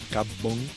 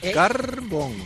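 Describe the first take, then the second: First: The r before the b is dropped. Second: The r before the b is pronounced. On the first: The speaker sounds like someone from Havana. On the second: The speaker does not sound like someone from Havana.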